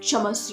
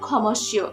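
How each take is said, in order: First: The word begins with a plain 's' sound. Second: The word begins with a 'ksh' sound. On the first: This is the Sanskrit pronunciation. "এই উচ্চারণটা সমস্য হচ্ছে কেন? কারণ এটা সংস্কৃত উচ্চারণ" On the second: This is the Bengali pronunciation. "বাংলায় উচ্চারণ হলে কি হবে?"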